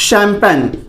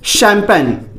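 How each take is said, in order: First: It starts with 'sh' and has two syllables. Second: It starts with 'sh' and has two syllables.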